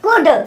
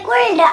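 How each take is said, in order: First: The L sound is left silent in the word. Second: The L sound is pronounced in the word. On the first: The speaker calls it right. "एल silent" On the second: The speaker calls it wrong. "ऐसे नहीं बोलेंगे"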